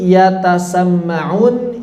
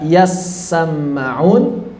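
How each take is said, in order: First: The t sound is pronounced separately. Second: The t merges into a doubled s sound. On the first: This is the underlying base form of the word. "yang dibaca" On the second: This is how the word is recited in the text. "yang dibaca yassamma'un"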